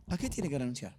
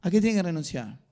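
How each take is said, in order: First: Low, softened question to the congregation; quiet question. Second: Firm, projected question to the congregation; forceful question. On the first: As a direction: drop the voice and ask it softly. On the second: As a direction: push the question out firmly from the start. Asks the same question more forcefully. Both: Real, not acted.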